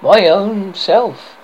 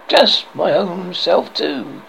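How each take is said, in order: First: High, slow, louder tiny fairy voice; a wee fairy child answering, drawn out and high; shrill sweet little voice. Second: Put-on slow, polite little boy's reply; courteous. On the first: Fairy child naming herself to the boy, high and sweet. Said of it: "in a shrill but sweet little voice". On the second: Boy politely answering the fairy child, slow and courteous. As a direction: answer kindly and carefully. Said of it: "he answered courteously". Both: A narrator's reading.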